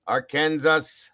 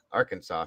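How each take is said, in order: First: "Arkansas" said slowly as Ar-KAN-sas, with the final s sounded like Kansas; playful mispronunciation. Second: Said in the usual way. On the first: Shown as a demonstration. Streamer jokingly mispronounces a state for chat, slow Ar-KAN-sas. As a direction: drag out "Arkansas" as Ar-Kan-sas, spelled the way it looks. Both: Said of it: "I like to say it like that".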